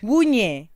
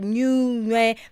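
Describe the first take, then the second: First: The name begins without the N sound. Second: The name begins with an audible N sound. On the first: The speaker calls it right. "Ignore the N" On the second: The speaker calls it wrong. "I hope I'm saying that right"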